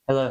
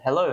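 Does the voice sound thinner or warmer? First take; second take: warmer; thinner. First: The voice sounds warmer, with more low-end fullness. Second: The voice sounds thinner, with less low-end warmth. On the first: "It adds a little uh, a little warmth to it" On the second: "This is what my voice actually sounds like with the microphone"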